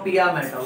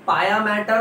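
First: The first word sounds like 'pee-ya'. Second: The first word sounds like 'pie-ya'. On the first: "पाया matter और पिया matter, what ever is comfortable" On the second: "पाया matter और पिया matter, what ever is comfortable"

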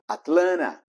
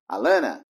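First: Both T sounds are pronounced. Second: Both T sounds are dropped. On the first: "Mas também pode ser pronunciado" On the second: "ela perde algumas vezes os dois T's"

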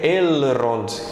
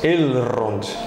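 First: The R is trilled and the L is clear. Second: The R is trilled and the L is clear.

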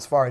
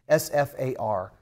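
First: The name is said as a single word. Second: The name is spelled out letter by letter. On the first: The speaker calls it wrong. "it's not SFAR" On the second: The speaker calls it right. "it's just S-F-A-R"

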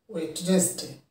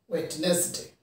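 First: The middle 'd' is pronounced, giving three syllables. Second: The same.

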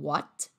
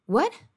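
First: The final t is clearly pronounced. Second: The final t is almost silent.

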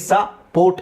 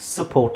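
First: The first vowel is a full open 'ah'. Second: The first vowel is a weak, short schwa. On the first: The speaker calls it wrong. "ಸ ಪೋರ್ಟ್ ಅಂತ ಹೇಳೋದನ್ನು" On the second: The speaker calls it right. "ಸಪೋರ್ಟ್ ಅಂತ ಹೇಳಬೇಕು"

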